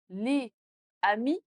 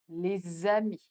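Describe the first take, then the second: First: The words are said separately without a Z link. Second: The words are linked with a Z sound. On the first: The speaker calls it wrong. "Sans liaison, ce n'est pas très naturel et robotique" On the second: The speaker calls it right. "un Français natif dirait les amis"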